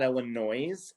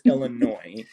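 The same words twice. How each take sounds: First: The word ends with a sounded s, like 'noise'. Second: The word ends in 'noy' with a silent s. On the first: The speaker calls it wrong. "It is not Illinois" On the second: The speaker calls it right. "It's Illinois"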